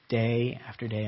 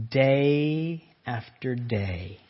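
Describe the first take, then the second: First: Said in the usual way. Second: "day after day" stretched very slowly; drawn-out DAY. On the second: Real, not acted. Preacher stressing relentless daily temptation, "day" long drawn out. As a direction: draw out each "day" to sound endless.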